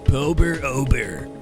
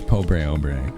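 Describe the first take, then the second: First: The first word ends with an 'er' sound. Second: The first word ends with a 'bray' sound. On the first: The speaker calls it wrong. "That's not how you say it" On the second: The speaker calls it right. "It's Pobre Obre"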